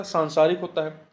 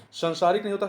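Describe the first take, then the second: First: सांसारिक with a long aa in सां; correct pronunciation. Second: Said in the usual way. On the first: Shown as a demonstration. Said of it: "सा पे आ की मात्रा". (सांसारिक में सां लंबा बोलिए)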